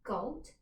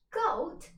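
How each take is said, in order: First: Said in the usual way. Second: Higher, louder shocked echo; a pirate chief shocked by goat stew; surprised. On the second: Acted. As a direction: repeat it in disbelief.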